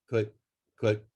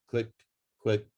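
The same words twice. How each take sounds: The two takes are said the same way.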